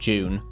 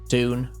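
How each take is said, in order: First: The word begins with a J sound. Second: The word begins with a plain D sound. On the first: "or June, depending on how you pronounce it" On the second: "depending on how you pronounce it"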